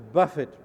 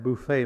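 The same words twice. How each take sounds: First: It is said like BUFF-it, with a first stress. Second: It is said like boo-FAY, with a final stress. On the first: The speaker calls it right. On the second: The speaker calls it wrong.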